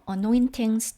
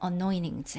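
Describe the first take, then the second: First: The t is pronounced as a clear t. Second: The t is flapped, sounding like a quick d.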